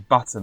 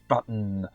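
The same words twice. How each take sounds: First: The T sound is clearly pronounced. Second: The T sound is dropped or swallowed. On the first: The speaker calls it right. "they never say button" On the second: The speaker calls it wrong. "they always say button"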